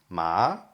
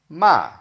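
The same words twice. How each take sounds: First: The pitch rises from low to high. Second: The pitch falls sharply from high. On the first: It means hemp. "If you if it rises" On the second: It means to scold somebody. "like a falling tone"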